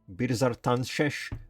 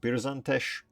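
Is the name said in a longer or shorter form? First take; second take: longer; shorter. First: The name is said with all its syllables. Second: The name is said in a short, clipped form. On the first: The speaker calls it right. "but it's Birzartanshesh" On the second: The speaker calls it wrong. "I call it just Birzantesh"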